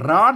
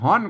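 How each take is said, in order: First: The word begins with an R sound. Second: The word begins with an H sound. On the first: This is the standard Thai form. "ไทยก็ร้อนนะ" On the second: This is the northern local dialect form. "ก็เมืองก็ฮ้อนนะ"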